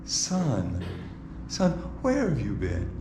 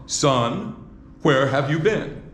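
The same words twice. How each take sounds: First: Son, son, where have you been said low and hushed; a mother murmuring softly, almost to herself. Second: A relieved mother half-scolding, laughing; exasperated mother. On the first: Preacher demos Mary's wrong soft voice to the ladies. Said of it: "Now, how are you saying it?". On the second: Preacher demos Mary scolding her lost son, laughing. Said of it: "I don't think that would be the voice. How about". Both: Shown as a demonstration.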